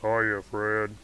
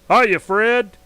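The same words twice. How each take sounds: First: Said in a lowered, deeper voice. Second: Said in a natural, higher-pitched voice. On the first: "lower your voice" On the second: "if I do my actual voice"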